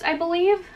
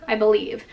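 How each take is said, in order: First: High questioning. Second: Said in the usual way. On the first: Shown as a demonstration.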